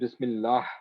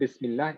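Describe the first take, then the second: First: The word ends with an audible h sound. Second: The word ends without an audible h sound. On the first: The speaker calls it right. "it is Bismillah with the ha at the end" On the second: The speaker calls it wrong. "is not Bismillah"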